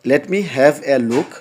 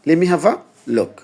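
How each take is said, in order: First: Each word of 'let me' is pronounced separately. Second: 'Let me' is blended into a single 'lemme'. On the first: The speaker calls it wrong. "নেটিভরা কি এভাবে বলবে না" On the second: The speaker calls it right. "তারা বলবে লিমি have a look"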